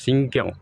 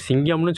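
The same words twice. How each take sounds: First: 'சிங்கம்' stressed and set apart, as the actor says it; actor's pronunciation. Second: Said in the usual way. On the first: Shown as a demonstration. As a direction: punch 'சிங்கம்' as one separate, emphatic word. ('சிங்கம்' என்று நடிகர் பாணியில் தனித்து அழுத்தி உச்சரிப்பு) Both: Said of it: "சிங்கம்னு சொல்ல மாட்டார்".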